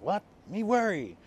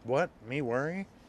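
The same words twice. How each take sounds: First: It ends with a falling, exclaiming tune. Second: It ends with a rising, questioning tune.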